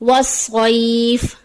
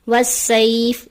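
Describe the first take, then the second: First: The s is heavy and full. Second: The s is light and thin. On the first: The speaker calls it right. "दुरुस्त अदायगी है" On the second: The speaker calls it wrong. "सौद की जगह सीन की अदायगी आ जाती है"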